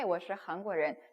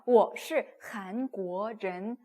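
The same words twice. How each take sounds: First: The last syllables are said loosely and easily. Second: Each syllable's tone is carefully and fully pronounced. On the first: "그걸 되게 편하게" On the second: "너무 힘들잖아요"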